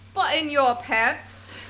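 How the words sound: It is said in a British accent.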